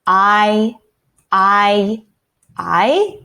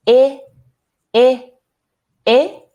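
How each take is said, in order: First: "I" sustained like "eye"; long I sound. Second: Higher, separate "ih" for each "I"; short I sound. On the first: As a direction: isolate each "I" as the i in beside. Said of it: "Do you hear the long I?". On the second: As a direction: isolate "I" as the i in split. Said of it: "Do you hear the I sound?". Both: Shown as a demonstration.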